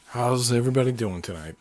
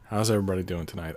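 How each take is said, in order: First: The greeting sounds overly excited. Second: The greeting sounds calmer and more even.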